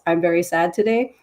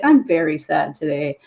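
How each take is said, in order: First: It is said flatly, without emotion. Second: It is said with sad emotion.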